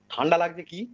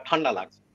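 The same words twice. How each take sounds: First: "ঠান্ডা লাগছে কি?" asked with the pitch rising on "কি"; questioning rise. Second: "ঠান্ডা লাগছে" said as a flat statement, falling at the end. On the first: ("ঠান্ডা লাগছে কি?" প্রশ্নের সুরে, শেষে ওঠা) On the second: ("ঠান্ডা লাগছে" বিবৃতির সুরে, শেষে নামা) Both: Shown as a demonstration.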